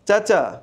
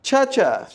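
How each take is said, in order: First: The ch sound is the Bengali one. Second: The ch sound is the English one. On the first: "এটা কি হলো বাংলার চ" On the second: "এটা ইংলিশে বলে দেখি"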